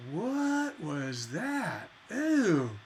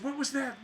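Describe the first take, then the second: First: Slow, drawn-out put-off question, then a mock ew; grossed out by the song; a listener who hated the surprise, disgusted. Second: Delighted, amazed question, a little higher; light excited wonder; a listener pleasantly surprised by the song, amazed; happy surprise. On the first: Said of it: "We don't want". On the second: Retold or imitated. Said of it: "we want them to go".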